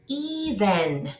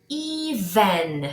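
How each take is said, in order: Both takes have the same delivery.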